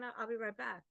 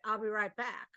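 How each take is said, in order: First: It is said in a plain, neutral tone. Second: It is said in an irritated, annoyed tone.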